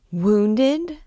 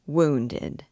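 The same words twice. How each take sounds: First: High, rising cry of dismay; alarmed, overcome. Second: Said in the usual way. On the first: A narrator's reading. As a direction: echo WOUNDED as a shocked question. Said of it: "The poor child was quite overcome". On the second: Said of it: "said Phoebus indifferently".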